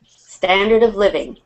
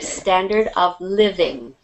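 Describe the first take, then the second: First: The phrase is said quickly. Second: The phrase is said slowly. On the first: "very fast in your pronunciation" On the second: "I'll do it slower"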